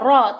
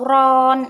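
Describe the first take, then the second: First: The vowel is short with no final n. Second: The syllable ends with an n sound. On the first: The speaker calls it right. "Jadi harus ro, ro ya ro" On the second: The speaker calls it wrong. "atau ron, itu tidak boleh"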